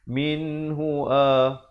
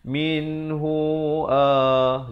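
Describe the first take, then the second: First: The final vowel is cut short quickly. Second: The final vowel is drawn out long. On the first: The speaker calls it right. "Dia kena cepat ya" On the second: The speaker calls it wrong. "jadi jadi hu tu dah dengar macam dua harakat"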